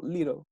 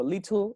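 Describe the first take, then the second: First: "little" as "LI-rel", tongue flicked for the T; little with flapped T. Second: LITTLE with a crisp t sound, "lit-tl"; "little" as "LIT-tul", T fully sounded; little with clear T. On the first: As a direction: say "little" with the t as a quick tap. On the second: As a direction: say "little" pronouncing the t as a true T. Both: Shown as a demonstration. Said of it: "Pueden pronunciarlo como little o little".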